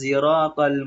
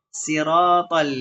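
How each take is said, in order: First: The first sound is blended toward a z. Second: The first sound is a plain, light s. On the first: "membaca huruf sotnya itu seperti huruf za" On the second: "bisa dibaca dengan huruf sin"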